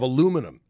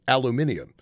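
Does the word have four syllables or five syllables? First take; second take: four; five. First: The word is said with four syllables. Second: The word is said with five syllables.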